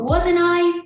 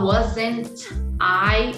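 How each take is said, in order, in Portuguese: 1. O T é omitido e as palavras ficam emendadas. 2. O T é pronunciado claramente antes da próxima palavra. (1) "sem o T" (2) "não está errado"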